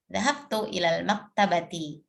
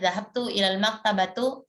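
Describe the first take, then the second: First: The last word ends in an i vowel. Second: The last word ends in an u vowel. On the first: The speaker calls it right. "yang betul" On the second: The speaker calls it wrong. "nah itu pasti keliru ya"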